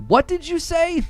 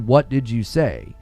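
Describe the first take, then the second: First: It is said forcefully, with extra emphasis. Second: It is said plainly, without extra emphasis.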